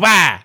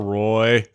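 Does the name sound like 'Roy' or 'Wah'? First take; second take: Wah; Roy. First: The name is said like 'Wah'. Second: The name is said like 'Roy'. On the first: This is the version he tells people. "apparently that's my impersonation of [name]" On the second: This is the family's usual name. "Actual real last name is Roy"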